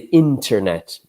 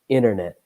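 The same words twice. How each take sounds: First: The middle T sound is clearly pronounced. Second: The middle T sound is left out. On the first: "you can pronounce the T" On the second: "I don't pronounce the T"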